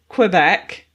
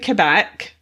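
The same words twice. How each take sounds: First: The name gets an English pronunciation. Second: The name gets a French pronunciation. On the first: "In English it could be Quebec" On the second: "in France it's definitely Quebec"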